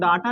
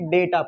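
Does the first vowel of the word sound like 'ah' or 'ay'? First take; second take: ah; ay. First: The first vowel is a long open 'ah'. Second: The first vowel is an 'ay' sound. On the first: This is the everyday Hindi way of saying it. "हम लोग डाटा नहीं पढ़ते हैं" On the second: This is the way it is read in the subject. "डेटा पढ़ते हैं"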